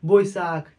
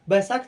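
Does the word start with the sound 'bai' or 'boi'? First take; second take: boi; bai. First: The first syllable is said as 'boi'. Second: The first syllable is said as 'bai'. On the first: This is how it is said in West Bengal. "पश्चिम बंगाल में चल जाएंगे ना तो वहाँ पे बोलते हैं बोईसाख" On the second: This is how it is said here and in Punjab. "हम लोग यहाँ पे बैसाख बोला जाता है"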